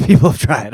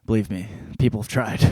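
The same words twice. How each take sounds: First: Laughing. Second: Said in the usual way. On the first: Real, not acted.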